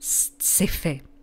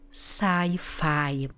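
First: The word is said with Czech sounds. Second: The word is said with English sounds. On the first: "Česky: mám ráda sci-fi" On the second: "Zapamatujte si anglickou výslovnost"

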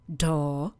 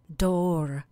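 First: It is said without an American accent. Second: It is said with an American accent.

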